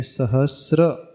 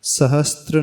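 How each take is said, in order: First: सहस्र slowly, long s straight into r; careful model of सहस्र with clean sr; correct sahasra. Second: सहस्त्र with a t inserted, str; wrong sahastra. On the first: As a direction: say सहस्र as sa-has-sra, no t. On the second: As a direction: say सहस्त्र as sa-has-tra. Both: Shown as a demonstration. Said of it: "सहस्त्र नहीं है".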